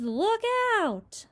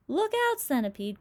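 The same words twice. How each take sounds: First: High alarmed shout, falling at the end; cried warning. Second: High, loud urgent cry; cried warning. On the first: James cries out as centipede topples, alarmed shout. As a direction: shout it as he goes over. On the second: James warns the falling centipede, loud high cry. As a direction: yell a warning across the deck. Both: Acted. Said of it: "cried James".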